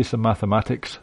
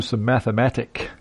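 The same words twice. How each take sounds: First: "mathematics" said with the final S; correct word form. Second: "mathematic" said without the final S; wrong word form. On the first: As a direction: keep the S sound on "mathematics". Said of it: "You say some mathematics". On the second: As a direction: drop the S from "mathematic". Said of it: "because you don't say". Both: Shown as a demonstration.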